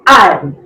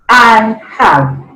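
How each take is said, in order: First: The two words are joined into one syllable. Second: Both words are said separately in full. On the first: "The contracted form is I've" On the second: "Uncontracted form"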